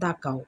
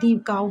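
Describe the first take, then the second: First: The word 'the' is said with a short 'uh' vowel. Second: The word 'the' is said with a long 'ee' vowel. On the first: The speaker calls it right. "তাহলে আমরা কোনটা বলবো? দা cow." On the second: The speaker calls it wrong. "অনেকেই দি cow বলো"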